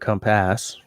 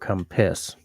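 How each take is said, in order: First: The second syllable has a full 'a' vowel. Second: The second syllable has an 'i' vowel. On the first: "you pronounce the A in compass" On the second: "you pronounce it as an I"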